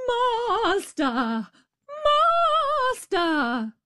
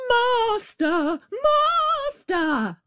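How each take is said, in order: First: High ringing cry; harp crying out. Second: Very high piercing cry; harp crying out. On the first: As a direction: shout for the master. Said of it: "the harp cried out". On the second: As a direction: shriek for the master. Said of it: "the harp called out quite loud". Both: A narrator's reading.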